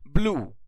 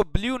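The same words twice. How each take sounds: First: ब्लू with a plain oo, "bloo"; correct pronunciation. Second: ब्लू said with a y-glide, "blyoo"; wrong pronunciation. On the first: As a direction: say ब्लू without any y-glide. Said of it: "क्या बोलेंगे?". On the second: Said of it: "इसको ब्लू नहीं बोलेंगे". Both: Shown as a demonstration.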